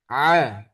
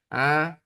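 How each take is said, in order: First: The vowel sounds open from the throat. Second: The vowel sounds pinched through the nose. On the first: The speaker calls it right. "a yang benar di dalam... tetap tidak ada perubahan sedikit pun" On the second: The speaker calls it wrong. "yang salah itu seperti ini... nah itu kejepit"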